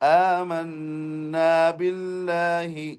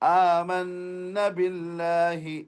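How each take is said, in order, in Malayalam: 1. ഇരട്ടിച്ച നൂനിന് ശേഷമുള്ള സ്വരം ദീർഘമാണ്. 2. ഇരട്ടിച്ച നൂനിന് ശേഷമുള്ള സ്വരം ഹ്രസ്വമാണ്. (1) "രണ്ട് ഹർക്കത്ത് നീട്ടണം" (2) "നീട്ടാതെ ... അത് തെറ്റാണ്"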